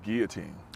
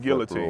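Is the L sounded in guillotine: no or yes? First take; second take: no; yes. First: The L sound is left out. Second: The L sound is clearly pronounced. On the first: "I don't think you pronounce the L in, in guillotine" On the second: "So I say"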